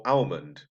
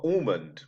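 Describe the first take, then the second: First: "almond" with an AL opening vowel; "almond" starting like the name Al; variant pronunciation. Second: "almond" with an AWL opening vowel; "almond" starting like "all"; variant pronunciation. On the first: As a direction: say "almond" as AL-mund. Second of two ways offered. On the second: Offers two ways of saying almond. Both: Shown as a demonstration.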